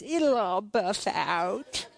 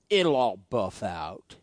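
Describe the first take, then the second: First: Slow, drawn-out tease with a grin; grinning wife. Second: Low, drawn-out teasing catchphrase; slow and low, like a kid needling dad; Micah. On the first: Wife teasing husband about his scratched truck, slow grinning imitation. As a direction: imitate a wife teasing, stretching each word. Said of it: "she just gives me this grin and says". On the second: Son needling his upset dad with his catchphrase, slow low imitation. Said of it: "Micah says this all the time". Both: Retold or imitated.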